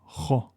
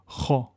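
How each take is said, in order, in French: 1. Le son kh est lourd et emphatique. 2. Le son kh est lourd et emphatique.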